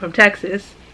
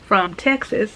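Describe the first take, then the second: First: It is said in her normal voice. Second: It is said in a put-on accent.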